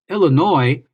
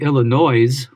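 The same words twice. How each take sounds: First: The final s is silent. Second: The final s is pronounced. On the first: The speaker calls it right. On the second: The speaker calls it wrong.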